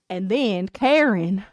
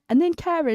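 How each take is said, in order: First: It is said in a flat American accent. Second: It is said in an intriguing British accent. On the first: The speaker calls it wrong. "if you listen to like an American like do it" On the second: The speaker calls it right. "But if you have a British accent, it's like"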